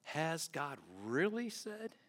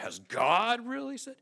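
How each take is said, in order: First: Slow, soft, drawn-out "really"; hushed doubt, "really" stretched; stress on really. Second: "really" pitched up, louder and incredulous; mock-incredulous serpent, hitting "really"; stress on really. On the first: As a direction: lean slowly on "really", questioning. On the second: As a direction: punch "really" high with disbelief. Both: Shown as a demonstration. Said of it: "However you want to put the emphasis there".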